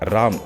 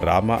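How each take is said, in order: First: The final vowel is dropped, ending on a consonant. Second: The word ends with a full final vowel. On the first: "ಕೊನೆ ಅಕ್ಷರನ ಕತ್ತರಿಸ್ತಾರೆ" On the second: "ರಾಮ ಅಂದ್ರೆ"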